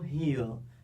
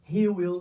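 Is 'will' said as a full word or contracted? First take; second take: contracted; full. First: Will is shortened and joined into one syllable. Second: Will is said as a separate full word. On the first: "você vai pronunciar uma só" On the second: "ao invés de duas sílabas"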